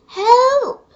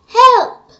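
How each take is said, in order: First: It is said quietly. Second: It is said loudly.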